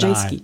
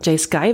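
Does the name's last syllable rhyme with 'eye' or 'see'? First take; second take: see; eye. First: The last syllable rhymes with 'see'. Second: The last syllable rhymes with 'eye'. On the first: The speaker calls it right. "Jay Ski, würde ich sie aussprechen" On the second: The speaker calls it wrong. "Jay Sky würde ich es nicht nennen"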